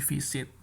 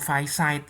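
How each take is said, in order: First: The first vowel is a short 'ih' sound. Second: The first vowel is a glide like 'eye'. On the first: The speaker calls it right. "tapi visit" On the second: The speaker calls it wrong. "itu bukan visit kan"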